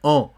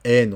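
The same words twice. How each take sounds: First: "en" as a nasal vowel, no n consonant; nasal "an" sound. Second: "N" said as "ènn" with a sounded consonant; wrong N sound. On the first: Teacher giving the correct sound of "en", nasal vowel. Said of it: "c'est toujours en". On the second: Teacher showing what "en" is not, "N" with hard n. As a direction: close "N" on a clear n. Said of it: "c'est pas N". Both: Shown as a demonstration.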